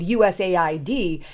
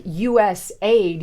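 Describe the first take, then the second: First: U S A I D as five separate letters, each one clear; spelled out letter by letter. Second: U S aid run together like the word "aid", you-ess-aid. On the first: Correcting himself, spells U S A I D out. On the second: Naming the agency, blends U S aid as a word. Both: Shown as a demonstration.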